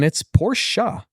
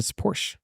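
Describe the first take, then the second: First: It is said the German way. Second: It is said the American way. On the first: This is how a German says it. "if you're a German, it's Porsche" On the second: This is how an American says it. "but to an American, it's Porsche"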